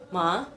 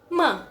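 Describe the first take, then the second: First: The pitch rises upward. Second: The syllable is said with strong emphasis. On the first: "nadanya naik ke atas" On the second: "ada penekanan"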